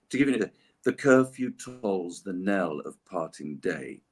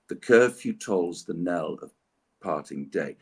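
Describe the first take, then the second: First: Said in the usual way. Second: Slow, "The curfew tolls the knell of parting day" read with weak, strong beats; slow metrical verse reading; iambic recitation. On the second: Shown as a demonstration. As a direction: mark each strong syllable like a heartbeat. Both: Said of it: "It's a heartbeat".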